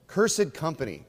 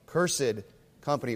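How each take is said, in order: Both takes have the same delivery.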